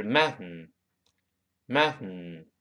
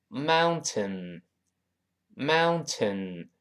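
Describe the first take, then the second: First: "mountain" with the t released through the nose; nasal plosion. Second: "mountain" said slowly with every syllable full. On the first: Teacher shows the fast form of "mountain", nasal release. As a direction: let the "tain" go nasal. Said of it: "读快了呢". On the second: Teacher reads "mountain" slowly syllable by syllable. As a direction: spell out "mountain", very slow. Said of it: "读慢了叫". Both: Shown as a demonstration.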